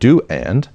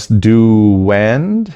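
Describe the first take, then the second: First: A small gap separates the two words. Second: A w sound joins the two words. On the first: The speaker calls it wrong. "instead of" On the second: The speaker calls it right. "there's a W sound"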